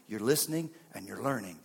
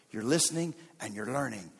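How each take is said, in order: Both takes have the same delivery.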